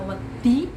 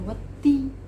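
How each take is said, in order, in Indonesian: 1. Kata itu diucapkan dengan cara yang terdistorsi. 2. Kata itu diucapkan dengan jelas dan tepat. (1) "Mboten kok wedi diwaca wedi" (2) "Nek muni wedi ya wedi"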